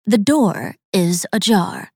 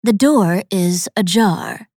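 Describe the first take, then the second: First: Slow repeated machine warning; robot voice. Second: Slow automated door voice; flat machine announcement, slowly; robot voice. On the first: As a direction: drone it like a door alarm. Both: A narrator's reading. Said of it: "The automated voice complained".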